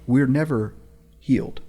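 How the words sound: It is said with a deliberate pause inside.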